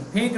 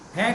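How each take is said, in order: First: The first vowel is a clear long e. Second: The first vowel is not a clear long e. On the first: The speaker calls it right. "फे ए ए sound आएगा।" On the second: The speaker calls it wrong. "फेंक नहीं"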